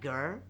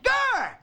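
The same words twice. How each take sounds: First: It is said calmly without screaming. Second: It is screamed loudly.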